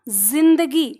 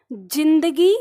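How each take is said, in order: First: जिंदगी slowly with a buzzing z; जिंदगी, second take, voiced z; z with Urdu z. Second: जिंदगी with plain j sound; जिंदगी, first take, plain ज. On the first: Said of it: "दूसरा". (दूसरा उच्चारण, नुक्ता वाला ज़) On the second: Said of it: "पहला". (पहला उच्चारण, सादा ज) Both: Shown as a demonstration.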